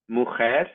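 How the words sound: It is said with the modern Spanish pronunciation. "the Spanish words"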